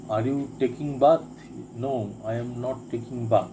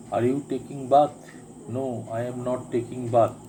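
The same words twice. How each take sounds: The two takes are said the same way.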